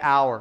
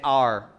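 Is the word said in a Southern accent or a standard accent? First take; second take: standard; Southern. First: The word is said in a standard accent. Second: The word is said in a Southern accent.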